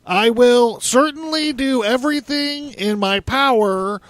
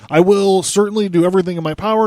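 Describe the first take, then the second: First: It is read in a put-on imitated voice. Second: It is read in the speaker's own voice.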